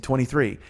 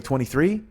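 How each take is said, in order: First: "Twenty-three." falling at the end, as a statement; matter-of-fact "Twenty-three.", dropped at the end; firm restatement. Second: "Twenty-three?" rising at the end, as a question; tentative "Twenty-three?", lifted at the end. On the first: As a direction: repeat "Twenty-three." flatly downward, settling it. Repeating the number after blank look. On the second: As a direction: ask "Twenty-three?" with an upward lilt. Telling a non-English speaker a number. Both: Retold or imitated.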